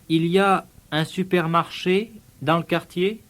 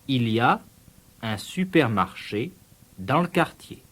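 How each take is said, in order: First: The voice rises at the end. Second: The voice falls at the end. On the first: It asks a question. "One way of asking a question is to vary the pitch of your voice" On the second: It states a fact. "a statement of fact"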